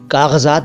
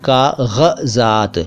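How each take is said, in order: First: The first consonant is a plain hard g. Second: The first consonant is a throaty gh sound. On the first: The speaker calls it wrong. "कागज़ात बोलते हैं लोग" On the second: The speaker calls it right. "लेकिन यह है कागज़ात"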